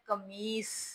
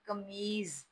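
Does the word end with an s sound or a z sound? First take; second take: s; z. First: The word ends with an s sound. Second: The word ends with a z sound. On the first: The speaker calls it right. "Urdu में ये लफ्ज है कमीस। तो कमीस बोला करें।" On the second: The speaker calls it wrong. "हम आम routine में इस लफ्ज को बहुत ज्यादा गलत बोलते हैं"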